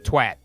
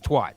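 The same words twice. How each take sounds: First: The word has a hard, flat A vowel. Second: The word has a soft, open A vowel. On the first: The word is spelled with a double T. "With T's at the end, it would be twat" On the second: The word is spelled with one T. "With one T, it's twat"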